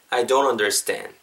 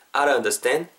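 First: "don't" with a clear d and rounded glide; slower, lower "I don't understand", d fully sounded; full "don't". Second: "I don't" reduced to "a-run"; flapped "don't". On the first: Teacher contrasting two ways for learners, "don't" with a clear d. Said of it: "두 가지로 발음될 수 있습니다". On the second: Teacher contrasting two ways for learners, "I don't" as "a-run". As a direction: blur "I don't" into one tapped-r sound. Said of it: "아른, 이런 뉘앙스라는 거죠". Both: Shown as a demonstration.

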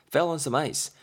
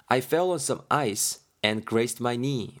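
First: Said in the usual way. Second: Each word read out slowly; slow careful reading. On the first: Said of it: "빙판길에 내 자빠졌었거든". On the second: Shown as a demonstration. Teacher reading the line slowly for students. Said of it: "하고 있습니다".

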